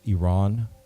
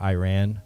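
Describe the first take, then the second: First: It is said in a non-American way. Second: It is said in an American way.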